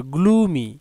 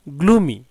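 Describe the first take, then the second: First: গ্লুমি as glu-mi, settled and falling; teacher repeating গ্লুমি as glu-mi; model pronunciation. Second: গ্লুমি as glu-mi, with a firm falling close; teacher confirming গ্লুমি as glu-mi; model pronunciation. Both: Shown as a demonstration. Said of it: "এখানে কিন্তু গ্লুমি উচ্চারণ হবে".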